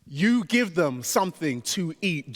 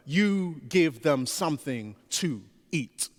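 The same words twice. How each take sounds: First: "give" hit hardest, falling at the end; same line, accent moved to "give"; stress on GIVE. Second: "You" leaned on, rest of the line even; stress on YOU. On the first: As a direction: drive the weight onto "give". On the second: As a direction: point the line at "You" alone. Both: Shown as a demonstration.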